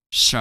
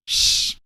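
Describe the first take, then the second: First: "Sh" voiced as "shuh"; exaggerated ending sound. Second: Said in the usual way. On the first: Shown as a demonstration. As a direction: release "Sh" into a short added vowel. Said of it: "pronounce these sounds much louder than usual". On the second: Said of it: "check out the other ending sounds".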